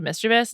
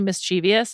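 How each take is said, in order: First: No extra syllable comes before the ending. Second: An extra 'ee' syllable comes before the ending. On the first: The speaker calls it right. "instead of mischievous. It's like there's no I there" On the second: The speaker calls it wrong. "when people say mischievous"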